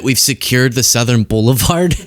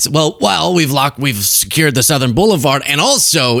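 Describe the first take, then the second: First: Said in the usual way. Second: Lightly imitated blustering president; a hint of a smug politician covering a gaffe; mock bluster. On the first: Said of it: "So he says twice that". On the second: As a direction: breeze past the slip like you meant it. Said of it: "acts like he meant to say it and goes".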